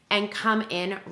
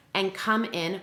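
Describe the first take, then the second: No difference in how they are said.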